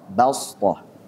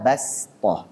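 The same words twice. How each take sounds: First: The s sound is emphatic and heavy. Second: The s sound is plain and light. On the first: This is the reading of one transmission chain. "Ini dibacanya dengan shad" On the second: This is the reading of the usual transmission chain. "pakai sin"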